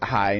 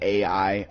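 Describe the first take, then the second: First: It is said as one syllable, like 'eye'. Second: It is said as two separate letters. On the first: This reading makes the card pun work. "it's pronounced I" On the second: This is the usual reading of the term. "not A I"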